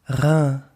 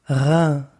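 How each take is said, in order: The two takes are said the same way.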